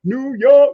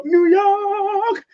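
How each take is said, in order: First: A bright hype call of the city name; excited call. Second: Sung falsetto. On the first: Host hyping a viewer's city on livestream, excited call. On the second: Host serenading a viewer's city on livestream, high sung falsetto. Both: Real, not acted.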